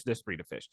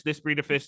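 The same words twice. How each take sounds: First: Much lower and softer; trailing echo. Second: Said in the usual way. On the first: Retold or imitated. Speaker repeating a talk, fading lower and softer. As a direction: let it fade away.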